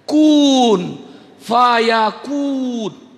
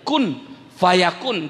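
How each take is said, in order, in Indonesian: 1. Vokal dalam kun dibaca panjang. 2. Vokal dalam kun pendek. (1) "Kenapa ada wawnya saya kenakan?" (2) "Kaf dengan nun ya Pak ya?"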